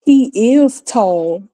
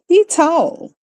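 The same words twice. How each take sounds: First: Said in the usual way. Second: Said high, dropping \"is\" in \"He tall\". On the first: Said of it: "rather than saying". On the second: Shown as a demonstration. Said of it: "we say".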